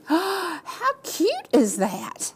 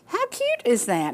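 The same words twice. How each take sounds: First: High, slow squealing delight; breathy gasp of delight; gushing gasp. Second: Said in the usual way. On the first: Real, not acted. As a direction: coo over it like it's the cutest thing ever. Gasping over baby clothes.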